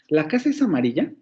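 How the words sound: It is said with a questioning intonation. The speaker is asking whether it is so. "la puedo hacer como una pregunta"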